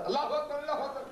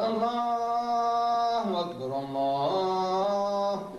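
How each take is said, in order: First: Quick clipped call pitched high; short shout. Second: Long drawn-out chanted call, higher and slow; sung, stretch each syllable so it carries far; sung call to prayer. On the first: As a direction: bark it out fast with no melody. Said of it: "If you just shout". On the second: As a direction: chant it like a muezzin from the minaret. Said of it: "He's singing it along that the voice may travel". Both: Shown as a demonstration.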